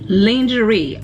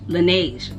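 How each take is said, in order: First: The name sounds like the word lingerie. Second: The name sounds like lah-nezh. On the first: The speaker calls it wrong. "I know I'm saying that wrong" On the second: The speaker calls it right. "That's how you say it"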